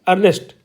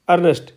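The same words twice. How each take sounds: First: The word begins with an 'er' vowel sound. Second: The word begins with an 'er' vowel sound.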